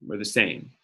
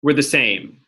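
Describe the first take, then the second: First: Softer, lower repeat of were the same; quiet echo. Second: Said in the usual way. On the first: Shown as a demonstration. Teacher softly repeating the rule while writing it down. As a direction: murmur it back to yourself while writing.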